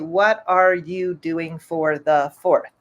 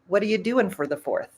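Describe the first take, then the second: First: Each word is said separately and clearly. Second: The words are run together quickly. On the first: "they won't say" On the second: "so that you can learn a little connected speech"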